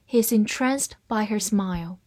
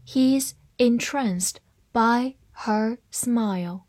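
First: Said in the usual way. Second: Word by word, slowly; slow, careful model sentence; slow reading. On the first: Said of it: "慢慢来读". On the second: Shown as a demonstration. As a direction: leave a gap after each word for learners. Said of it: "好，慢慢来读".

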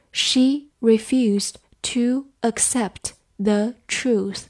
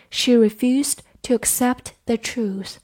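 First: Slow and separated, word by word; slow reading. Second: Said in the usual way. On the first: Shown as a demonstration. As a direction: read it slowly for learners. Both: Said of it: "我们慢读一遍".

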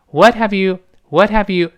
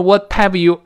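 First: "What have you" linked with a very light t; light t, h dropped. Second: "what have you" with a hard, heavily released t into "have"; heavy t, wrong. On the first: Teacher shows correct "What have you", t very light. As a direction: glide from "What" into "have you", h almost gone. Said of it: "这是特别轻". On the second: Teacher shows what not to do, "what have you" with heavy t. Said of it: "重读不行啊". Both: Shown as a demonstration.

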